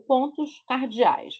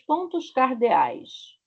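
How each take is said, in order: First: It is said in a Rio de Janeiro accent. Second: It is said in a neutral Brazilian accent.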